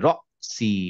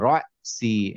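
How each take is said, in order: First: The first vowel is a short, clipped o. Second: The first vowel glides into a y sound. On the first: The speaker calls it right. "ওই অটাই একটু ধাক্কা দিয়ে" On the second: The speaker calls it wrong. "আমরা ইংলিশে বলি না রয়"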